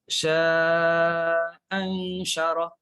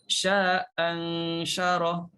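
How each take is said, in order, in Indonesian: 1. Vokal panjang pertama ditahan selama empat harakat. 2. Vokal panjang pertama ditahan selama dua harakat. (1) "Kita boleh panjangkan empat harakat" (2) "Kita boleh panjangkan dua harakat"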